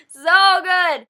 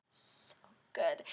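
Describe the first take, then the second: First: Loud exclaim. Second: Whispered. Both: Real, not acted.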